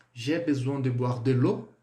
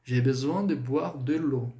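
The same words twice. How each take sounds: First: Slow French question, rising on "l'eau"; question intonation. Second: Slow French statement, falling on "l'eau"; affirmative intonation. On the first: Teacher models a sleepy person's question, questioning intonation. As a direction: lift "l'eau" at the end as if asking. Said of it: "Então, a entonação". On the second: Teacher models the affirmative for students, falling intonation. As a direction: let "l'eau" drop at the end as a statement. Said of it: "Afirmei, não é?". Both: Shown as a demonstration.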